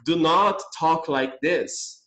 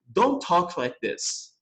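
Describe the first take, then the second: First: Slow full form. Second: Slow contracted form. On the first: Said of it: "em vez de eu falar". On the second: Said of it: "é mais comum ouvir um americano falar". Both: Shown as a demonstration.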